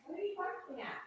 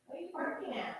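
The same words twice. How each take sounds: First: High, soft pet voice, repeated; talking to a pet. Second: High, soft voice for the dog; talking to a pet. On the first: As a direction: ask the dog again, high and hushed. Repeated to dog. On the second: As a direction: coax the dog, high and hushed. Asking dog softly. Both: Real, not acted.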